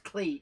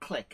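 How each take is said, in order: First: The vowel is long, as in cleek. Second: The vowel is short, as in click. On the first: This is the proper pronunciation. The speaker calls it right. "it's Cleek" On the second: This is how Americans pronounce it. The speaker calls it wrong. "it's not Click"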